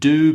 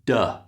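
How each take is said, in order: First: The word has a full, clear vowel. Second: The word has a weak, reduced vowel.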